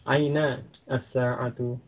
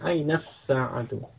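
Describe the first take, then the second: First: The words are separate and the article's vowel sounds. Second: The words run together and the article's vowel drops. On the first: "Kalau dibaca terpisah itu juga boleh" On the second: "langsung ke sinnya"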